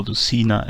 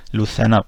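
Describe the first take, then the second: First: "Lucena" said the English way, with s; anglicised "Lucena", loo-SEE-na; English pronunciation. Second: "Luthanna" with a th in the middle; original-style pronunciation. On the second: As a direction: say "Luthanna", th sound rather than s. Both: Shown as a demonstration. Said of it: "the English may pronounce it".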